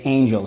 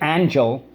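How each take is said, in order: First: A letter takes its second sound. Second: A letter keeps its usual first sound. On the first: The speaker calls it right. "we say angel. So we do have to put the second sound over here" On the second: The speaker calls it wrong. "we don't say angel"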